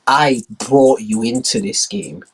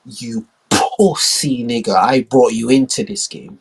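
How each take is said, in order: First: Slow, firm reminder; lightly voiced slow menace; menacing China. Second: Very slow, heavy repeat; lightly voiced slow menace; menacing China. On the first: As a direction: press each word slowly. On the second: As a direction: hammer it home slowly. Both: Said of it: "China, like".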